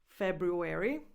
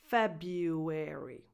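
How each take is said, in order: First: An R sound follows the B. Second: No R sound follows the B.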